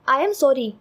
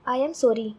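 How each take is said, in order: First: It is shouted loudly. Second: It is said softly and quietly.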